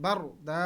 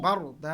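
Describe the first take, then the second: No difference in how they are said.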